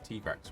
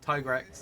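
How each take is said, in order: First: The first part does not sound like tiger. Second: The first part sounds like the word tiger. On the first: It is closer to the Japanese original. "closer to the Japanese pronunciation is Tigrex" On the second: The name blends tiger and T-Rex. "Tiger, T-Rex, Tigrex"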